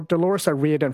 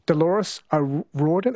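First: "O'Riordan" said oh-REE-dun; corrected name pronunciation. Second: "O'Riordan" said oh-RAW-dun; tentative name pronunciation. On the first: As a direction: say "O'Riordan" with an ee vowel. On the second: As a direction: try "O'Riordan" with an aw vowel. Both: Shown as a demonstration. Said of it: "is it Riordan?".

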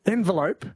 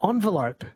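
First: "envelope" starting with EN, as in "ten"; EN pronunciation. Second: "envelope" starting like "on"; ON pronunciation. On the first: Host weighing how Mick says it, EN-velope. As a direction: say "envelope" with a short E first. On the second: Host offering Mick the other option, ON-velope. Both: Shown as a demonstration. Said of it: "Do you say".

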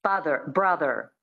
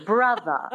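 First: American Father, brother with final r sounded; standard American. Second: Transatlantic Brother, r dropped to a schwa; non-rhotic Brother; transatlantic accent. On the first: Coach listing example words, standard American accent. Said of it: "So that's the American". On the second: Coach giving an example word, transatlantic accent. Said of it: "the transatlantic accent". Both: Shown as a demonstration.

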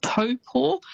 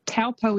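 First: Taupo as TOE-paw, higher and set apart; careful Maori-style Taupo, first vowel like 'toe'; correct Maori pronunciation. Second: Taupo said as TOW-po, first vowel as in 'cow'; anglicised TOW-po for Taupo; spelling pronunciation. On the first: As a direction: say Taupo with a rounded 'toe' opening. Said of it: "is actually pronounced". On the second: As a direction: read Taupo as it's spelt, with an 'ow'. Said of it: "It's almost how it's spelt". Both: Shown as a demonstration.

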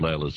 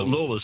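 First: "Layla's" with an AY first vowel; the other way, "Layla's" with AY; alternative pronunciation. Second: "Lawler" with an AW first vowel; the supposed-to-be "Lawler", with AW; proper local pronunciation. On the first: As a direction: say "Layla's" with LAY at the front. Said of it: "Layla's the other way". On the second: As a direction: say "Lawler" to rhyme with "taller". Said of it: "how it's supposed to be pronounced". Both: Shown as a demonstration.

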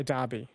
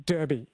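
First: "Derby" said as DAR-bee; DAR-bee pronunciation. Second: "Derby" said slowly as DUR-bee; DUR-bee pronunciation. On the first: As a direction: give "Derby" an AR vowel. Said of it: "that I would say Derby". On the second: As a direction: give "Derby" an ER vowel. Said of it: "I say Derby". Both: Shown as a demonstration.

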